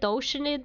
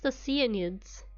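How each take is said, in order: First: The word begins like the word 'ocean'. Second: The word does not begin like 'ocean'. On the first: The speaker calls it wrong. "I keep pronouncing it Oceanid because you know ocean" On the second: The speaker calls it right. "they're pronounced Oceanids"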